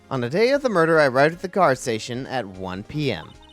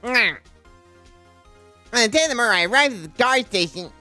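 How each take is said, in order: First: It is said in the speaker's normal voice. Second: It is said in a put-on nerdy voice.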